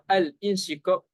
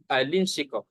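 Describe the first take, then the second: First: A glottal break separates al from insyiqaq. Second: The l links smoothly into insyiqaq without a break. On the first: The speaker calls it wrong. "Tapi kalau al insyiqaq salah" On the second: The speaker calls it right. "Kita sebut al insyiqaq"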